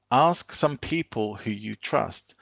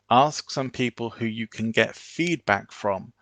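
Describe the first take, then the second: First: "Ask some people who you trust" slow, falling firmly at the end; command tonality. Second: "Ask some people who you can get feedback from" rising at the end; questioning tonality. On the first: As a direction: finish it down like an instruction. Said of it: "Command tonality goes down at the end". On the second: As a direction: let it lift like a question. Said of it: "A questioning tonality is something that goes up at the end". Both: Shown as a demonstration.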